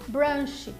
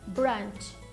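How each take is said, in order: First: It is said with a Brazilian Portuguese accent. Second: It is said with an English accent. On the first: The speaker calls it wrong. "É comum ver muitos brasileiros falando brunch" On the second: The speaker calls it right. "a pronúncia correta é brunch"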